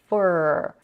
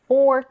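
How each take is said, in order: First: The word is reduced to a 'fur' sound. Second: The word has its full 'or' vowel. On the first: "to fur" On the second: "the reduction of for"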